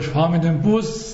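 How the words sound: The stress falls on the word Bus. I take the bus rather than the train. "nicht mit der Eisenbahn"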